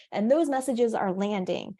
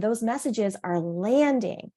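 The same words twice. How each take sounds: First: Those stressed and falling. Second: Landing leaned on, falling, slowed; landing gets the weight, slow and settling; stress on landing. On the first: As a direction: put the weight on those, not landing. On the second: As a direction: lean into the word landing. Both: Shown as a demonstration.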